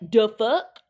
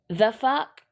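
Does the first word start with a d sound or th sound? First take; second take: d sound; th sound. First: The first word starts with a d sound. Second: The first word starts with a th sound. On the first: The speaker calls it wrong. "Is that how y'all say it?" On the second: The speaker calls it right. "if you want to say it properly"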